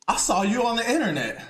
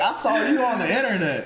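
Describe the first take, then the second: First: A lightly voiced old-school boss, higher and half laughing; imitating the old-school boss. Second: A hint of the old-school boss, higher, laughing through it; imitating the boss again. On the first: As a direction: mimic the boss's line with a chuckle. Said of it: "That's exactly how he said it". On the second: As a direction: quote the boss once more with a laugh. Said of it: "He was like".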